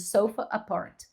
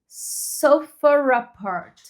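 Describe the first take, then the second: First: No R sound links sofa and apart. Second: An intrusive R links sofa and apart.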